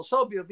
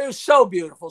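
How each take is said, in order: First: Said in the usual way. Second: The word so leaned on and louder; stressed so. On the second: Real, not acted. Telling the guest how stunning the studio was, stress on so. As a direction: lean on so, it was so beautiful. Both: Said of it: "It was so beautiful, so beautiful".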